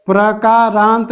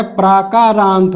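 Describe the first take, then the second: First: प्रकारांत said with short a after प्र, pra-kaa-raant; प्रकारांत as the wrong spelling, short first a; wrong form. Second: प्राकारांत said with long aa after प्र, praa-kaa-raant; प्राकारांत, stretch the first vowel to long aa; correct form. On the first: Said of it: "प्रकारांत नहीं होता है". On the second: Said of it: "प्राकारांत होता है". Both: Shown as a demonstration.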